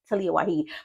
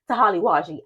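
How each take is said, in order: First: The name is said as Talia Waheed. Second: The name is said as Tahali Waji. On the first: The speaker calls it right. "But really, I think it's Talia Waheed" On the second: The speaker calls it wrong. "what I really want to say is Tahali Waji. I don't know why, but I just love to say it that way"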